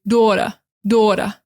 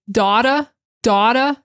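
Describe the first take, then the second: First: New York "daughter" as "dawtuh"; New York accent. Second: Boston "daughter" as "dahtuh"; Boston accent. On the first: Teacher contrasting New York "daughter". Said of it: "New York is gonna say". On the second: Teacher contrasting Boston "daughter". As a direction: open "daughter" wide, drop the r, Boston way. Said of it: "Boston is gonna say". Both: Shown as a demonstration.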